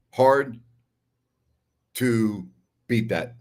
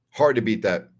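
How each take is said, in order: First: Slow, weighty repeat with a big gap after "Hard"; emphatic pauses. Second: Said in the usual way. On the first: Real, not acted. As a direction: break it after "Hard" and draw out "to beat that". Repeats the verdict word by word.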